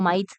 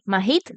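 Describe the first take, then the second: First: The h is not pronounced at all. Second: The h is breathed out audibly. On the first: "ignorando la H" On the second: "con H aspirada"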